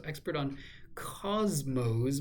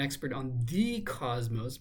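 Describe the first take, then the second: First: "cosmos" stressed, with no "the" before it. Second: "the" stressed and said as "thee". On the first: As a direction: land on "cosmos" as the contrasting word. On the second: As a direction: lean on "the" before "cosmos". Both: Shown as a demonstration. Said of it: "as opposed to expert on the cosmos".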